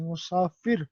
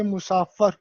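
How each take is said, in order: First: مسافر said musafir, u short after m; مسافر, teacher modelling mu-saa-fir; correct pronunciation. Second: مسافر said ending in -ar, not -ir; the mistaken مسافر, musaafar; teacher showing the wrong مسافر; wrong pronunciation shown. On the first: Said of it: "یہ مسافر ہوتا ہے". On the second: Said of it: "نہ کہ مسافر". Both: Shown as a demonstration.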